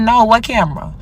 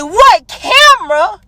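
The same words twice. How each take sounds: First: Said in the usual way. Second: High, slow, drawn-out disbelief; mocking outraged repeat of what camera; incredulous echo. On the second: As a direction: throw his words back at him, stunned. Throws his denial back, stunned.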